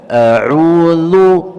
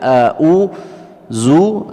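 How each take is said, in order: First: The last consonant is a soft 'th' sound. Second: The last consonant is a buzzing 'z' sound. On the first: The speaker calls it right. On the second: The speaker calls it wrong.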